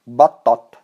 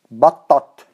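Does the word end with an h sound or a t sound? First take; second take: t sound; t sound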